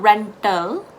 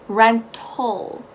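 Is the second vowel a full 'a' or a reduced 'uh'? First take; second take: full 'a'; reduced 'uh'. First: The second vowel is a full 'a' sound. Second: The second vowel is a reduced 'uh' sound. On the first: The speaker calls it wrong. "Not rental" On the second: The speaker calls it right. "you're gonna go with that U sounding A"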